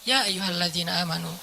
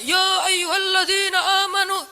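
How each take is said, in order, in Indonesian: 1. Dibaca dengan tenang, dengan suara lembut dan santai. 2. Dibaca dengan keras dan kuat, hampir seperti berteriak. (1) "tapi santai turunnya" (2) "turunnya nggak gini"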